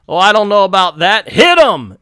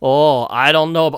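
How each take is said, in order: First: Higher, louder put-on Asian accent; a villain's line redone in a mock Asian accent. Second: Said in the usual way. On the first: Nazi officer ordering the attack, mock Asian accent. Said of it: "I can do Asian accent". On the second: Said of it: "oh, wait, that's the American".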